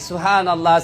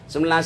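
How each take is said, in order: First: It is said slowly with every syllable clear. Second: It is said fast with syllables slurred together. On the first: The words are said properly. The speaker calls it right. "Maka perbaiki" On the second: The words become unclear. The speaker calls it wrong. "Zikirnya terlalu cepat. Akhirnya apa? Tidak jelas"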